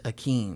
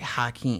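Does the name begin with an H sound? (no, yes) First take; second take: no; yes. First: The name starts directly with a vowel sound. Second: The name starts with an audible H sound. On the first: The speaker calls it right. "There's no H. It's Akeem" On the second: The speaker calls it wrong. "they hear it and say Hakeem"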